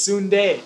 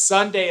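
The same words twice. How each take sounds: First: It is pronounced as if it were Filipino. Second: It is pronounced as the ordinary English word. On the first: The reader takes it for an unknown native word. "like you're reading Filipino" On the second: The reader recognizes it as a common English word. "That's an English word"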